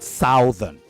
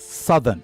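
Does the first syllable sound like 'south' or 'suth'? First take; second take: south; suth. First: The first syllable has the 'ow' vowel. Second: The first syllable has a short 'u' vowel. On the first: The speaker calls it wrong. "not southern" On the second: The speaker calls it right. "imagine that the O um, um, is not there. So you pronounce it as S U T H E"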